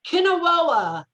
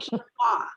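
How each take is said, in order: First: The word is garbled with extra syllables. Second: The word is said as keen-wah. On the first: The speaker calls it wrong. "he's having them all try to pronounce it" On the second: The speaker calls it right. "So it's called quinoa"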